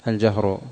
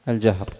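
Both takes have the same delivery.

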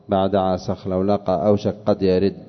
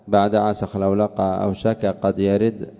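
First: The k is merged fully into the following q. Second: The k is pronounced separately before the q. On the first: The speaker calls it right. "الكاف في أوشك تسكن وتضغم في القاف" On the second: The speaker calls it wrong. "لو قرأتها بعد عسخ لولق أو شك قد يرد انكسر الوزن"

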